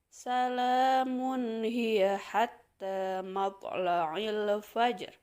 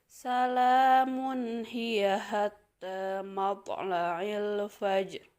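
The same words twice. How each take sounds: Both takes have the same delivery.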